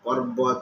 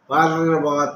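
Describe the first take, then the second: First: A half r is clearly pronounced after the pa. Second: The r before the b is not clearly pronounced. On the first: The speaker calls it right. "ଆମେ ପ ତାପରେ ର ଟା ଅଧା କହିବା" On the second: The speaker calls it wrong. "ଏ ର ର ଉଚ୍ଚାରଣ ଠିକ ହଉନି"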